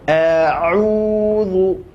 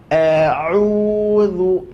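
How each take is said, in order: Both takes have the same delivery.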